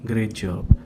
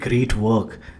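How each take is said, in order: First: It sounds low and unimpressed. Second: It sounds lively and excited.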